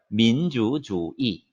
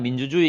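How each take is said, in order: First: It is said with Chinese pronunciation and tones. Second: It is said with Korean pronunciation, without tones. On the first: "성조만 들어가 있는 거죠" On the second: "우리는 그냥 민주주의 이렇게 하지만"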